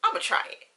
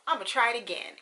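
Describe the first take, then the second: First: High breathy burst of resolve; a sudden high, airy "I'ma try it"; eager self-quote. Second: Said in the usual way. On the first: Retold or imitated. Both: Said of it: "one day I was just like".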